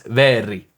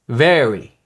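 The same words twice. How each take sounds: First: The R is rolled or tapped. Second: The R is a soft American R.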